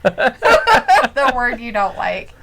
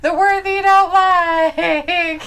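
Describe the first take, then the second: First: Slow, giggly tease; amused teasing. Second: High, slow singsong breaking into laughter; exaggerated teasing. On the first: Real, not acted. Teasing partner about the disliked C word, amused. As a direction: say it slowly, laugh just behind it. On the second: Repeating the tease about the C word, exaggerated. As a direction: stretch it out in a mock-wailing tease.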